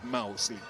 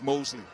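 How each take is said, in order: First: The first syllable sounds like 'mouse'. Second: The first syllable sounds like 'moss'. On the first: This is how the team members said the name. The speaker calls it wrong. "Each of them said Mosley. Mouse" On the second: This is how the player himself says his name. The speaker calls it right. "My name is Mosley"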